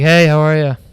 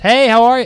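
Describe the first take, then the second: First: It is said in a flat, monotone voice. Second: It is said in a lively, upbeat voice. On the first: The person seems uninterested in the customer. The speaker calls it wrong. "I hate a monotone waiter" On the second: The person seems friendly and engaged. The speaker calls it right. "Just just this"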